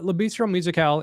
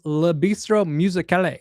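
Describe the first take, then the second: First: The name is said with French-style sounds. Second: The name is said with English-style sounds.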